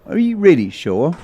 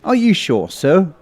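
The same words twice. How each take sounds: First: Higher question pressing on "really", rising at the end; inquisitive, insistent. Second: Higher-pitched doubting question; inquisitive. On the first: Constable pressing patient again, "really" insistent and rising. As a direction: press doubt with "really", lifting up on "sure". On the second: Constable doubting the patient's story, inquisitive. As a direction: check politely but doubtfully, higher. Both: Acted. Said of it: "looked at me inquisitively and said".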